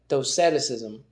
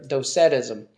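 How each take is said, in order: First: The word has an extra syllable in it. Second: The word is said without the extra syllable. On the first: The speaker calls it wrong. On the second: The speaker calls it right.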